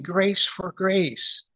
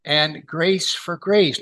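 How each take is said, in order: First: "grace" drawn out and falling; very slow "grace for grace". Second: Both "grace" words weighted; slow "grace for grace". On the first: Preacher stressing the overflow of grace. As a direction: stretch it as if overflowing. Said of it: "it's grace overflowing". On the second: Preacher lingering on the phrase for his congregation. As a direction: let "grace" fall heavily each time. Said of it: "why is it grace for grace". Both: Shown as a demonstration.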